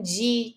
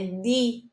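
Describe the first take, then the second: First: The syllable has the Brazilian Portuguese d sound. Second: The syllable has the Italian d sound. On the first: "a gente tem o som de D, com di" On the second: "mas em italiano é di"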